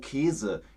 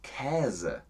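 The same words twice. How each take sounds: First: The first vowel is a closed 'ee' sound. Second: The first vowel is an open 'ä' sound. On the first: This is how most Germans say it in everyday speech. "eigentlich sagen die meisten Deutschen" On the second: This is the standard stage pronunciation. "es heißt auf Bühnendeutsch Käse"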